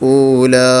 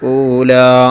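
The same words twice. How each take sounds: First: The word ends with an added h breath. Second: The word ends on an open long vowel. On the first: The speaker calls it wrong. "ഹാ കൊടുത്തുകൊണ്ട് വഖഫ് ചെയ്യരുത്" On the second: The speaker calls it right. "അസ്ലിയായ മദ്ദിനേക്കാൾ കൂടാനും പാടില്ല"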